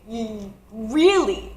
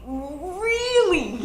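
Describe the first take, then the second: First: Said in the usual way. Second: Higher, laughing disbelief on Really; incredulous laughing really. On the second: Retold or imitated. Hearing foot was broken.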